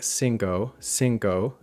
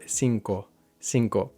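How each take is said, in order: First: Cinco ending in a gliding ow sound; gliding English o. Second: Cinco ending in a short pure o; pure Spanish o. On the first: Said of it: "we end up saying". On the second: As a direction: say cinco with a clean single o. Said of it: "instead of". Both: Shown as a demonstration.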